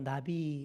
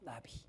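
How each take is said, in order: First: It is said as the ordinary Korean word. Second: It is said with a Hebrew-like pronunciation. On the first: It means butterfly. "어쨌든 이것도 나비잖아요" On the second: It means prophet. "정확한 발음으로 나비 이렇게 하는데"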